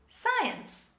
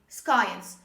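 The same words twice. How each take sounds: First: No k sound follows the first s. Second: A k sound follows the first s. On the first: The speaker calls it right. "this is science" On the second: The speaker calls it wrong. "they mispronounce this word and they say science"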